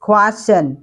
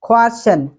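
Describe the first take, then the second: First: The k has a strong puff of air. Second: The same.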